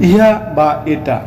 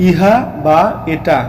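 The two takes are said the same way.

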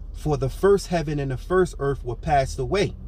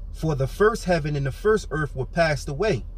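The two takes are said the same way.

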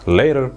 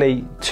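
First: The middle consonant sounds like a soft D. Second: The middle consonant is a hard T. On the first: The speaker calls it right. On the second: The speaker calls it wrong.

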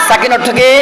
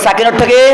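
No difference in how they are said.

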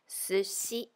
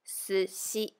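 No difference in how they are said.

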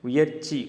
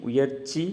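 Both takes have the same delivery.

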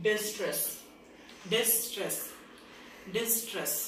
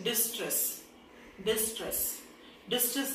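No difference in how they are said.

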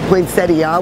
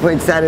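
First: The word is said in a careful, formal way. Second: The word is said in a casual, everyday way. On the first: The speaker wants to sound sophisticated. "poinsettia would be the sophisticated" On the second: This is the everyday street form. "poinsettia is just what we call street lingo"

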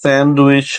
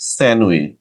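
First: A d sound is heard before the w. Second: The nd becomes an m sound. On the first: The speaker calls it wrong. "স্যান্ডউইচ না বলে" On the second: The speaker calls it right. "আমরা বলবো স্যান্ডউইচ"

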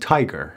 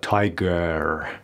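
First: The final vowel is a weak schwa. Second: The final vowel is a full, strong vowel. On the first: The speaker calls it right. "میگیم tiger. ا ا" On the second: The speaker calls it wrong. "نمیگیم تایگر یا tiger"

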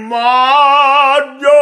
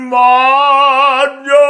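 The two takes are said the same way.

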